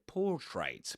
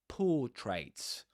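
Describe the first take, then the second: First: The R after the first vowel is pronounced. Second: The R after the first vowel is silent. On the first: The speaker calls it wrong. "You don't say portraits" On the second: The speaker calls it right. "portraits without pronouncing the R"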